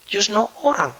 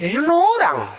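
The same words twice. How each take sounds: First: Said in the usual way. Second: "Ellos no oran" with a long, high "no"; stress on no. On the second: Shown as a demonstration. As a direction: punch the word "no".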